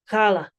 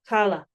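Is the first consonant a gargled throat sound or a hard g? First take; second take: gargled; gargled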